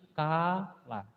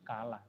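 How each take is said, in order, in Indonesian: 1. Vokalnya diucapkan panjang. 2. Vokalnya diucapkan pendek. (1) "dibunyikan panjang berarti kala, lebih panjang lagi" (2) "K dan La saja itu sudah berbunyi kala"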